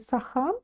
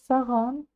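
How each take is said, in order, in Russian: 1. Средний согласный — придыхательный звук h. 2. Средний согласный — звонкий звук g. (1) "через букву х" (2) "немножко звонче"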